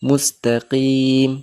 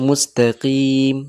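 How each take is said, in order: Both takes have the same delivery.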